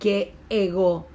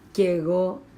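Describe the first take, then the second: First: The two words are said separately with a break. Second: The two words run together as one word. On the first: The speaker calls it wrong. "no suena bien decir que ego, porque ven que es como que voy cortando" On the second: The speaker calls it right. "todo junto uno dice"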